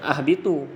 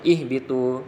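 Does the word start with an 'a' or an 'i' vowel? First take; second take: a; i. First: The word starts with an a vowel. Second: The word starts with an i vowel. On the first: The speaker calls it wrong. "jadi tak betul" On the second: The speaker calls it right. "Jadi bacanya ihbitu"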